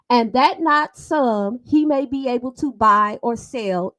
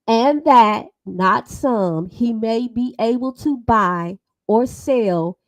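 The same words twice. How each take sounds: First: It is read at a quick pace. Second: It is read at a slow pace. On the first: The speaker calls it wrong. "People people read too fast" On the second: The speaker calls it right. "Let's read it slow"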